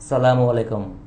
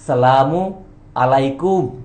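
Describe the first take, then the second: First: Salam runs straight into alaikum with no vowel. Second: Salam ends with a 'u' before alaikum. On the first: May you be destroyed. The speaker calls it wrong. "বলবেন না।" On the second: May God's blessing be upon you. The speaker calls it right. "আসল উচ্চারণ বা আসল প্রোনাউন্সিয়েশনটা হচ্ছে"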